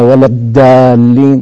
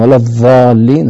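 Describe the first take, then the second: First: The consonant is a plain d stop. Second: The consonant is an emphatic th-like fricative. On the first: "هذه دالا وليس ضادا" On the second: "هذه ضاء وليس ضادا"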